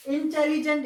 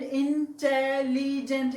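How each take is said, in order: First: Said in the usual way. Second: "intelligent" slowly in four separate parts; split into syllables. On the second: Shown as a demonstration. Teacher counting four syllables, "intelligent" broken into parts. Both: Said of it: "इसके भी syllable जो है चार".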